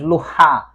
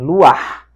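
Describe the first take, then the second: First: The a vowel comes after the final h sound. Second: The a vowel comes before the final h sound. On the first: The speaker calls it wrong. "não lemos luha, como em geral deveria" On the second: The speaker calls it right. "nesse caso em particular nós temos luar"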